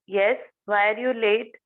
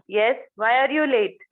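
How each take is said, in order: First: The tone sounds a little angry. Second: The tone sounds very angry. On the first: The late person can still apologize. "Second toning मध्ये थोडासा राग आलाय" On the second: The late person will stay silent. "Third toning मध्ये she will feel की I am very angry"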